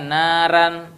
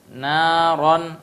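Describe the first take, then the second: First: The r and its vowel sound thin and light. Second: The r and its vowel sound thick and heavy. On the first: The speaker calls it wrong. "Jangan naran" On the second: The speaker calls it right. "Dibaca dengan tebal"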